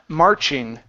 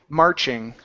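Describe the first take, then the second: The two takes are said the same way.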